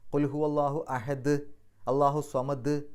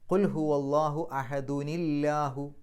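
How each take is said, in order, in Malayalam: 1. 'അല്ലാഹു'വിന് മുമ്പ് കടുപ്പമുള്ള 'd' ശബ്ദത്തിൽ നിർത്തുന്നു. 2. 'ni' ശബ്ദം കൂട്ടിച്ചേർത്ത് തുടർച്ചയായി ചേർത്ത് വായിക്കുന്നു. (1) "നമ്മൾ പാരായണം നിർത്തുമ്പോൾ സുക്കൂൻ ഇട്ടിട്ടാണ് നിർത്തുക" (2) "അവിടെ ഒരു നീ എന്ന് ചേർത്ത് കൊടുക്കണം"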